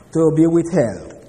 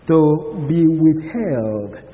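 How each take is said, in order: First: Said in the usual way. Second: "to be withheld" drawn out very slowly, weight on "be"; very slow, deliberate "to be withheld"; slow emphasis. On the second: Shown as a demonstration. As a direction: let "to be withheld" sink in, very slowly.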